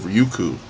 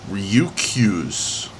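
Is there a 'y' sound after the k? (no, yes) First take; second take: no; yes. First: There is no 'y' glide after the k. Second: There is a 'y' glide after the k. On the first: The speaker calls it wrong. "instead of" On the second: The speaker calls it right. "say this correctly ... That extra Y"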